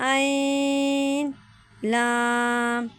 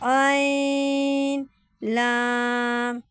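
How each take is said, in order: Both takes have the same delivery.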